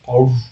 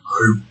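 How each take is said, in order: First: It is said at a higher pitch. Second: It is said at a lower pitch.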